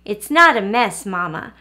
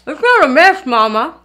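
First: Said in the usual way. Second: Talking through a mouthful of biscuit; mouth full. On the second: Shown as a demonstration. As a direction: say it round a bite of food. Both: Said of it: "I'll try pretending like I'm eating biscuit".

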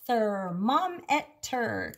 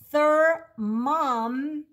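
First: Careful slow "Thermometer" for imitation; slow demo word. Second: "Thermometer" stretched slowly, rising at the end; speech-teacher model of "Thermometer"; slow demo word. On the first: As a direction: model "Thermometer" slowly for the child. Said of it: "Can you do that". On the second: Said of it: "it says mom". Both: Shown as a demonstration.

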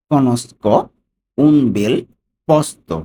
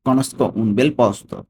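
First: "Conosco / un bel / posto" louder, with long pauses; broken into chunks. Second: "Conosco un bel posto" slowly in one connected run; whole phrase together. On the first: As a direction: pronounce "Conosco un bel posto" piece by piece, higher and emphatic. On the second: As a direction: link "Conosco un bel posto" without pauses. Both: Shown as a demonstration. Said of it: "ভেঙে ভেঙে আমরা উচ্চারণ করি".

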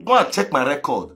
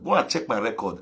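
First: Said in the usual way. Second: Softer, lower repeat of the same boast; quiet knowing echo. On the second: Real, not acted. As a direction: drop it to a soft aside.

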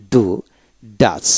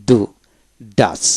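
The two takes are said the same way.

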